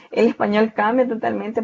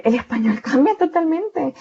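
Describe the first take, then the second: First: Said in the usual way. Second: "cambia totalmente" lifted high and pressed; teacher's high emphatic first take of "cambia totalmente". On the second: Shown as a demonstration. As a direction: stress "el español cambia totalmente" with a high, forceful push.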